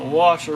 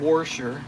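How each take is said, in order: First: It is said in a plain, ordinary accent. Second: It is said in an imitated regional accent.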